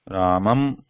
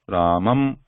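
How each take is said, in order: No difference in how they are said.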